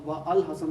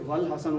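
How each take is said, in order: First: The 'al' starts separately after 'wa'. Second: The two words run together as 'wal'. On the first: The speaker calls it wrong. "अब व अल हसन नहीं पढ़ रहे" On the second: The speaker calls it right. "जैसे वल हसन"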